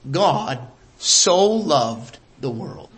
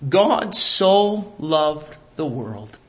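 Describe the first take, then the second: First: "God so loved the world" with "so" stressed and rising. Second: "God so loved the world" with God stressed, slow and low. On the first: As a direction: draw out "so" and lift it, said slow and low. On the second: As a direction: lean on "God", then let the line fall slowly. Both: Shown as a demonstration.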